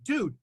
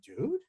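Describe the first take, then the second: First: It sounds like a casual, friendly greeting. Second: It sounds like a question. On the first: It is a greeting. "If you were to say hello" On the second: The speaker is asking something. "If you're to ask a question"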